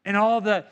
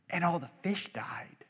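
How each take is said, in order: First: Said in the usual way. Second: Breathy hushed whisper, voice dropped away. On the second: Acted. Preacher imagines Pharaoh's thoughts, hushed whisper. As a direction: let it fall into an awed whisper. Whispered reaction to Nile plague.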